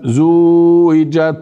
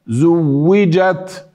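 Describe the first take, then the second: First: The vowel before w is drawn out long. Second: The w sound is doubled and held. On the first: The speaker calls it wrong. "هذه مدة، لا نريد" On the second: The speaker calls it right. "يوجد على الواو شدة"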